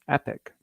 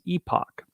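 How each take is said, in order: First: The word is said with an American pronunciation. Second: The word is said with a British pronunciation. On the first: "if you're in the United States, the pronunciation is epic" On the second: "If you're in the U K or Canada, the technical pronunciation is epoch"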